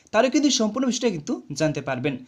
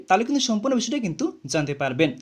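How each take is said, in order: Both takes have the same delivery.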